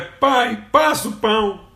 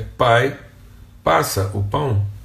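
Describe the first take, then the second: First: It sounds like a demanding, impolite order. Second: It sounds like a polite, confident request.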